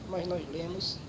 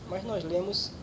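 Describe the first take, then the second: No difference in how they are said.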